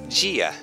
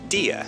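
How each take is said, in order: First: It is said in a São Paulo accent. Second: It is said in a Northeastern accent. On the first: "Lá, eles falam"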